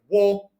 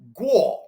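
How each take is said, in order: First: The word begins with a w sound. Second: The word begins with a g sound. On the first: This is the Cantonese pronunciation. "if we were to pronounce this word guo in Cantonese, it would be pronounced something like wo" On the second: This is the Mandarin pronunciation. "the Mandarin word guo"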